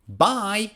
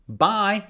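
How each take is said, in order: Both takes have the same delivery.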